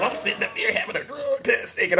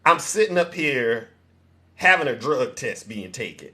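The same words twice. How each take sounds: First: Laughing retelling. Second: Imitating Mama Cat. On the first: Retold or imitated. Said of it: "Zeus is off the rails". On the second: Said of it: "you can hear Mama Cat in the background going".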